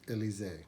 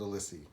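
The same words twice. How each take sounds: First: It is said the French way. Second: It is said the English way, as spelled. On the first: The speaker calls it right. "the proper pronunciation, because I think it's supposed to be French" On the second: The speaker calls it wrong. "I've always called it Elysee"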